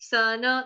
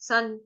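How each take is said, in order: First: The final n is full, with a vowel. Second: The final n is half, without a vowel. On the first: "अगर न पूरा होता तो कैसे बोलते हैं हम? जैसे हम मन में बोलते हैं" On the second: "यहाँ पे न हलनता है, न आधा, तो कैसे गाएंगे?"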